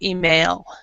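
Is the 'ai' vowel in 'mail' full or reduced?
full. The 'ai' vowel sound is fully pronounced. This is how most Americans say it.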